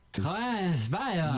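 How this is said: It is said in a put-on foreign accent. "you're not a foreign idiot on the street"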